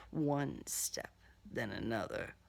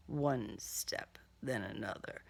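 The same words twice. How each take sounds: The two takes are said the same way.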